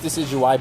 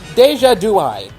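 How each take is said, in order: First: The name is said as 'decidueye'. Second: The name is said as 'deja dui'. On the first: The speaker calls it right. "I know it's Decidueye" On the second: The speaker calls it wrong. "I know I'm saying it wrong. I'm doing it on purpose"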